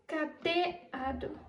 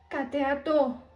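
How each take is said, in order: First: The stress is on the second syllable. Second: The stress is on the last syllable. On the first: "Se a sílaba tônica fosse o T" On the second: "Se a sílaba tônica fosse o TO"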